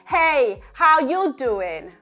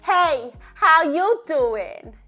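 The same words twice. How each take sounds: First: The voice sounds neutral, larynx at rest. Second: The voice sounds high and thin, larynx raised. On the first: "a more neutral larynx positioning" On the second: "say it intentionally with a more higher larynx position"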